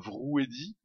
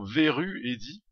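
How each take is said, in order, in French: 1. Le premier mot fait une syllabe, vrou. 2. Le premier mot fait deux syllabes, ve-ru. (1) "je l'appelais toujours Vrou Eddy, vu l'orthographe de son pseudo" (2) "ça se prononce bien Veru Eddy"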